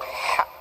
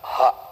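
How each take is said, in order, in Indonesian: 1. Bunyi h berasal dari tengah tenggorokan. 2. Bunyi h berasal dari dalam dada. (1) "Kalau ha kecil di tengah tenggorok" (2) "Kalau ha besar di dada"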